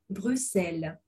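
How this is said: The x sounds like a voiceless 's'. The speaker is from Belgium. "le belge dira Bruxelles en prononçant le X comme un S sourd"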